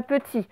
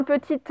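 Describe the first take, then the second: First: "petit" ending on the i sound; final t silent. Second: "petite" with the closing t pronounced; final t sounded. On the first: Teacher shows the word without E, silent t in "petit". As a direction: drop the last t of "petit". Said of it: "sinon, ça ferait petit". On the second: Teacher confirms the feminine form, sounded t in "petite". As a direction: finish "petite" on an audible t. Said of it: "c'est bien petite E". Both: Shown as a demonstration.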